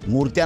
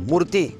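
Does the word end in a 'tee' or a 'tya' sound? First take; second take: tya; tee. First: The word ends with a 'tya' sound. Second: The word ends with a 'tee' sound. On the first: The speaker calls it wrong. "मूर्त्या नाही" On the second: The speaker calls it right.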